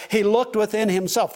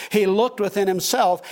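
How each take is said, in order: First: "looked" hit hardest in the phrase; stress on looked. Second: "He" hit hardest in the phrase; stress on he. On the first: Pastor stressing the farmer's inward gaze, "looked" emphasized. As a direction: lean on "looked" in "he looked within himself". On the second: Pastor repeating the verse for the congregation, "He" emphasized. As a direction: lean on "He" in "He looked within himself". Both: Shown as a demonstration. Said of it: "you heard me emphasize the word".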